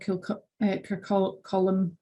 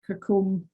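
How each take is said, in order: First: The name ends with a two-syllable 'colum' sound. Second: The name ends with a long 'combe' sound. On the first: "or Kircolum" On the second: "It's not Kircombe"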